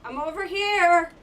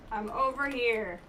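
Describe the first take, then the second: First: Loud, high call to the enemy. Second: Said in the usual way. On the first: Real, not acted. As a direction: shout to lure it over. So I gotta trick it.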